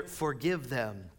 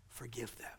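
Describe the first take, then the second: First: Said in the usual way. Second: Soft unvoiced whisper, much softer; whispered prayer. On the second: Jesus praying for executioners, whispered. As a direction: breathe the words like a prayer.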